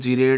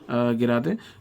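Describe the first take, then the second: First: It is said as two syllables, 'jee-rayd'. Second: It is said as three syllables, 'gi-rah-deh'. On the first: The speaker calls it wrong. "कई लोग इसे जीरेड है अनजीरेड बोलते हैं" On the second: The speaker calls it right. "Actual pronunciation is अनगिरादे एंड गिरादे"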